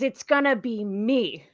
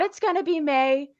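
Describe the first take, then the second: First: The last word ends with an 'ee' vowel. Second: The last word ends with an 'ay' vowel. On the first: This is the actual lyric. The speaker calls it right. "this song is It's Gonna Be Me" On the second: This is how the singer's pronunciation is misheard. The speaker calls it wrong. "the way that [name] weirdly pronounces the word me"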